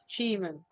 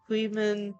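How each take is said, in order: First: The word begins with a ch sound. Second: The word begins with a kw sound. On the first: The speaker calls it right. "We know how to pronounce it now" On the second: The speaker calls it wrong. "pronounced that badly"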